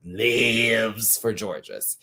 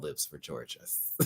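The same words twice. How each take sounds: First: "Lives" stretched out very long and slow; playful, drawn-out stress on "Lives"; hammed-up emphasis. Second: Said in the usual way. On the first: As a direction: drag out the word "Lives" for comic effect. Repeats it exaggerated after laughing.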